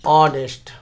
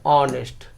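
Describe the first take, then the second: First: The word starts with a vowel sound. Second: The same.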